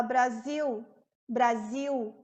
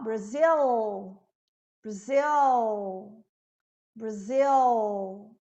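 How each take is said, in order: First: "Brasil" ending in an IU glide; final L as U. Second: "Brasil" low and drawn out into a dark English L; dark L ending. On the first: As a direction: say "Brasil" as bra-ZIU. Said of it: "som normalmente de U". ("Brasil" com L final com som de U) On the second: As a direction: hold a dark L at the end of "Brasil". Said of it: "é um dark L". ("Brasil" com L escuro no final) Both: Shown as a demonstration.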